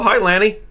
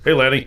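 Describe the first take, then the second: First: It is said in his normal voice. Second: It is said in a lower voice.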